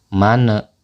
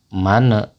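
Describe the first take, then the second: No difference in how they are said.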